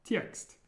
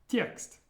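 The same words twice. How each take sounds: The two takes are said the same way.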